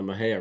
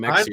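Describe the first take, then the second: First: The middle of the name has an h sound. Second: The middle of the name has a ks sound. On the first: The speaker calls it right. "getting uh, Mahea right" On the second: The speaker calls it wrong. "they say it wrong. They go"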